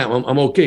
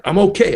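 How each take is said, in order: First: Said in the usual way. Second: Insisting. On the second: Retold or imitated. Insists again, much higher.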